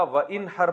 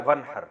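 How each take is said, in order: First: و and ان ہر said as separate parts; separated pronunciation. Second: و runs straight into ن as ون ہر; merged pronunciation. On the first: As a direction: sound out و, then ان ہر, unmerged. (و اور ان ہر الگ الگ) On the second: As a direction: join it into ون ہر, dropping the alif. (الف گرا کر ملا کے ون ہر) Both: Shown as a demonstration. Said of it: "پڑھا جاتا ہے ملا کے".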